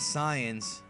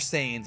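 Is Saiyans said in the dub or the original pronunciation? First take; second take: original; dub. First: Saiyans is said in the non-dub pronunciation. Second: Saiyans is said in the English dub pronunciation.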